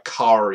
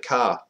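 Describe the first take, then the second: First: The final R sound is clearly pronounced. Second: The final R sound is dropped. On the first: "You got to really enunciate the R" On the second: "I'd say jump in the car"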